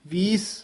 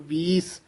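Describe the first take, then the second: No difference in how they are said.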